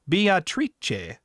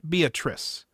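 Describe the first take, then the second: First: The name is said with an Italian pronunciation. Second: The name is said with an English pronunciation. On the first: The speaker calls it right. "her name is pronounced in the Italian way" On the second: The speaker calls it wrong. "not Beatrice"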